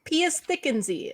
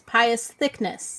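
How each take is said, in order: First: The surname ends with an extra ee sound. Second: The surname is said like the word thickness. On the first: This is how other people in the fandom say it. "is what I've seen people say" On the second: This is how the speaker privately understood the name. "my understanding is that his name, I think, at least in my brain, is"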